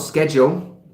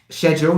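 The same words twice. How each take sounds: First: The word is said with a non-British pronunciation. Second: The word is said with a British pronunciation. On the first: The speaker calls it wrong. "not schedule" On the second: The speaker calls it right. "British English"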